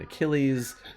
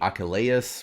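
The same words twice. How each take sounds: First: The name is pronounced in the usual English way. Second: The name is pronounced in a Greek-like way. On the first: This is the familiar everyday form. "rather than" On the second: This is the historically accurate form. "if they were trying for for total accuracy, like it would be"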